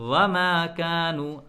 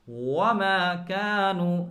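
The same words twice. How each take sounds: First: The first sound is made with teeth on lip. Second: The first sound is made with rounded lips. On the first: The speaker calls it wrong. "हम ऊपर वाले दांतों को नीचे वाले होठ से मिलाते हैं" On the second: The speaker calls it right. "दोनों होठों को गोल करके वाव पढ़ा जाता है"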